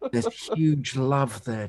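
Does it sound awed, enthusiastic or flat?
awed. It is said in an awed tone.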